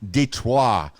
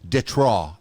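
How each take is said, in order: First: It is said with a plain English pronunciation. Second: It is said with a French pronunciation.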